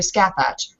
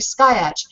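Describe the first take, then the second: First: The first part sounds like 'scat'. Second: The first part sounds like 'sky'. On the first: The name is read as it is spelled. "pronounced phonetically" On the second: The name is taken from the Isle of Skye. "this is clearly based on the Isle of Skye"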